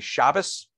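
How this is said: It is said with an Ashkenazi pronunciation.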